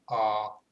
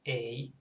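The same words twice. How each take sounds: First: The letter is said with a Finnish vowel. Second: The letter is said with an English vowel. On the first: "in Finnish it's A" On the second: "it's A in English"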